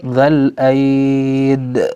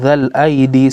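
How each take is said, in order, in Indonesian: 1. Kata ini berakhir pada konsonan, tanpa vokal akhir. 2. Kata ini berakhir dengan vokal 'ee' di akhir. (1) "ketika berhenti dalam keadaan darurat dzal aid" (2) "bukan dzal aidi seperti yang di atas"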